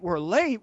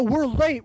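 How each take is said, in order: First: Said in the usual way. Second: Yelling the first "We're late." at a sleeping friend; urgent shout. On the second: Retold or imitated. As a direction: push it out in a panic.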